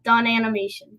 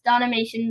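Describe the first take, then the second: First: The name is said as two separate words. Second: The name is blended into one word. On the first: The speaker calls it wrong. "not Don Animation" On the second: The speaker calls it right. "is pronounced Donimation"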